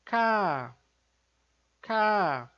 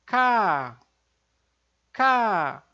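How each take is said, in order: First: "K" said soft and held back; a gentle, light "K" with no push; soft plain K. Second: "K" louder and tense, no breath; a firm, tight "K"; tense double K. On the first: Teacher demonstrating the soft simple K. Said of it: "o som fraquinho, lá da consoante simples". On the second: Teacher demonstrating the stronger double K. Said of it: "um pouquinho mais forte". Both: Shown as a demonstration.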